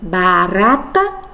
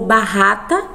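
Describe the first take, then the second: First: The middle R is a soft tap. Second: The middle R is a strong, harsh sound. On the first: The speaker calls it right. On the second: The speaker calls it wrong.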